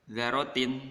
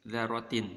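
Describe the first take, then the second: The two takes are said the same way.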